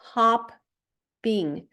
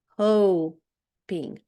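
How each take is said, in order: First: The first vowel is short, as in 'hap'. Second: The first vowel is long, as in 'hope'. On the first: The speaker calls it right. "Ми утворили два закритих склади" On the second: The speaker calls it wrong. "перший склад у нас був би відкритим"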